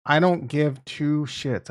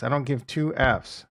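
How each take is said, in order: First: Slow, deliberate "I don't give two shits", leaning on "don't"; slow, punchy recreation of a line he liked; emphatic. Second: Said in the usual way. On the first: Shown as a demonstration. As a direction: drag out "don't" and drop the pitch at the end. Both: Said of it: "the best words that ever come out of my mouth".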